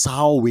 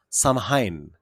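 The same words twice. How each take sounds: First: Samhain said SOW-in, the M silent; proper pronunciation. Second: Samhain said as written, SAM-hain; spelling pronunciation. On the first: Host shows how it is pronounced, Samhain said SOW-in. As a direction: say Samhain as SOW-ween, with a W sound. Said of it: "but it is pronounced". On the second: Host introduces the festival's name as spelled, Samhain said SAM-hain. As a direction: sound out the M and H in Samhain. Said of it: "It is spelled S A M H A I N". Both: Shown as a demonstration.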